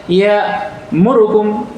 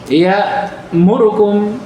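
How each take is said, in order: First: The vowel on 'ru' is cut very short. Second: The same.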